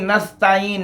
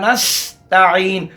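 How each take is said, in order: First: The s sound is soft without a whistle. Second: The s sound is sharp and whistling. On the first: The speaker calls it wrong. "ऐसे नहीं" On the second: The speaker calls it right. "सीन पे सीटी निकले"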